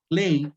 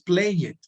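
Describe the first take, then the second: First: The ending is a short t sound only. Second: The ending is an extra separate syllable. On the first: The speaker calls it right. "se pronuncian como si todos terminaran con T" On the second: The speaker calls it wrong. "no es play it"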